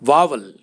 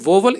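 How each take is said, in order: First: The first vowel sounds like 'ah'. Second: The first vowel sounds like 'oh'. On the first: The speaker calls it right. "इसका सही उच्चारण है वावल" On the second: The speaker calls it wrong. "वोवल इसका गलत उच्चारण है"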